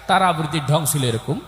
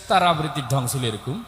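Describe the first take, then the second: Both takes have the same delivery.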